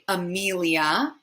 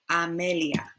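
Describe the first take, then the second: First: The name is said with an English accent. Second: The name is said with a Spanish accent. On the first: "In English, we would say Amelia" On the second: "but we have A, E, I, A"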